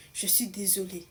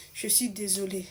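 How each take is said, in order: First: Whispered, softer apology to her mother; a teenage girl whispers a tearful apology. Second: Said in the usual way. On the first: Retold or imitated. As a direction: breathe out "je suis désolée" as a whisper, near tears. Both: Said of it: "commence à pleurer".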